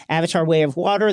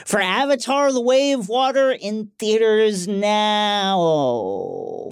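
First: Said in the usual way. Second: Slow movie trailer announcer. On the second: Acted. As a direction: draw it out like a trailer voiceover. Mock movie trailer tagline.

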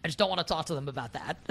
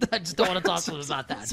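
First: Said in the usual way. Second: Laughing through the repeated line; real laughter breaking into the words. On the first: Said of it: "repeats the line laughing". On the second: Real, not acted. To the cohost, repeating herself while laughing.

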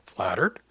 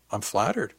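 First: "flattered" rising at the end as a question; grinning question. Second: "flattered" lilting up then down, as a statement; grinning statement. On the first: He echoes himself to tease her, "flattered" lifted into a question. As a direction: turn "flattered" into a teasing question. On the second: He answers her flirtation, grinning, with "flattered" as a statement. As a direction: say "flattered" as a pleased statement, with a grin. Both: A narrator's reading. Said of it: "told her with a grin".

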